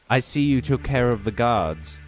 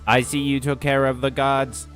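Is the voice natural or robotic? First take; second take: natural; robotic. First: It is read in a natural voice. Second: It is read in a robotic voice. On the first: The speaker calls it wrong. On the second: The speaker calls it right.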